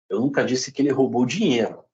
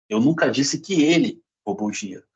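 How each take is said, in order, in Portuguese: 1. A palavra 'dinheiro' tem o acento principal. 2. A palavra 'ele' tem o acento principal. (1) "Pode ter roubado outra coisa" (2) "Pode ter sido outra pessoa"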